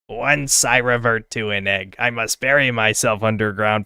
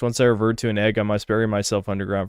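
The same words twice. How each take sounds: First: It is read in a put-on character voice. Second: It is read in a normal speaking voice.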